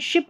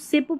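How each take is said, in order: First: The word begins with an sh sound. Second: The word begins with an s sound. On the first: The speaker calls it right. "श में देखिए शिप" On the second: The speaker calls it wrong. "अब इसको सिप पुश नहीं पढ़ना है"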